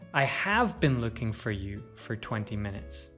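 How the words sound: The word have carries the main stress. It answers someone who doubts the looking happened. "If we stress have, it suggests that the other person doubts us"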